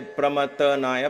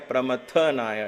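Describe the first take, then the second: First: The syllable 'tha' gets no special emphasis. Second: The syllable 'tha' gets a little extra emphasis. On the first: The speaker calls it wrong. "Don't say Pramathanaya" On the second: The speaker calls it right. "A little emphasis on tha. ... Pramathanaya it is"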